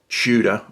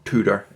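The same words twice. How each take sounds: First: It is said with a British accent. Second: It is said with an American accent.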